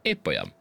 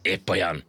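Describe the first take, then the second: First: Low-pitched, falling answer; low firm reply. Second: Mildly angry, falling reply. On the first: Ant's firm plain reply. (mély hangon, határozottan) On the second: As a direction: answer back with a touch of temper. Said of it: "mondta dühösen a hangya". (kissé dühösen) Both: A narrator's reading.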